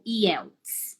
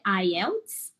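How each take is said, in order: First: The name is said with Brazilian Portuguese pronunciation. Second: The name is said with English pronunciation. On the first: This is how viewers in Brazil know it. "quem está nos assistindo no Brasil talvez conheça como" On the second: This is how it is said in English. "a pronúncia em inglês é"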